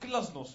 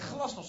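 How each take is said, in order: First: The first G is hard and harsh. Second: The first G is soft and southern. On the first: "met een harde G" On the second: "Je zegt glasnost, zeg jij"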